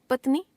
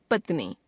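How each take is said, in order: First: पत्नी ending on short इ; wrong pronunciation. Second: Said in the usual way. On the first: Shown as a demonstration. Teacher showing a common error, पत्नी with short last vowel. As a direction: cut the नी of पत्नी to नि. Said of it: "अशुद्ध". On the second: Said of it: "शुद्ध".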